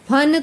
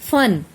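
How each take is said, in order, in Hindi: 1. यह आस्पिरेटेड p ध्वनि से शुरू होता है। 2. यह f ध्वनि से शुरू होता है। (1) "फन तो होता है सांप का मस्तक" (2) "इसे बोलते हुए हमारे होंठ और दांत आपस में मिलेंगे"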